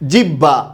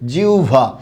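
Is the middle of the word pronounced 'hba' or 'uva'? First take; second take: hba; uva. First: The middle is pronounced with an 'hb' sound. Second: The middle is pronounced with a 'uv' sound. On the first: The speaker calls it wrong. "আমরা এটা উচ্চারণ করি কি জিহ্বা জিহ্বা এরকম উচ্চারণ করে থাকি এটা উচ্চারণটা ভুল" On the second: The speaker calls it right. "উচ্চারণটা কি হবে জিউভা"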